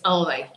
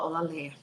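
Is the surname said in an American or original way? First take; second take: American; original. First: The surname is said with an American pronunciation. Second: The surname is said the original, fuller way. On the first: "But American way is Ole, like my sons will say" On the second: "That's how you say it"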